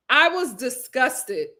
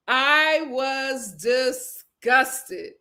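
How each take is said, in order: First: "disgusted" said slowly and firmly; emphatic disgust. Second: "I was disgusted" stretched out word by word; heavily emphatic disgust. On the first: Host reacts to everybody being there, "disgusted" said slowly. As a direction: lean on "disgusted" at an unhurried pace. First take of repeated statement. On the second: Host repeats her reaction for effect, "disgusted" very drawn out. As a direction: drag "disgusted" apart syllable by syllable. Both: Real, not acted.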